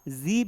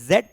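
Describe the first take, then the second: First: The letter is said as zee, American style. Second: The letter is said as zed, British style.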